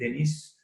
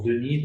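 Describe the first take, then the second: First: The name is said the English way. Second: The name is said the French way.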